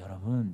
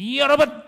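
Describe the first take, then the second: First: It is said hesitantly, with little energy. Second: It is said loudly, with exaggerated force. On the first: The speaker lacks confidence. The speaker calls it wrong. "이러면은요. 큰일 나요" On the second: The speaker projects bold confidence. The speaker calls it right. "그렇게 얘기해야 돼요. 아주 그냥 오바를 그냥 한 이백 퍼센트를 하게 하는 거예요"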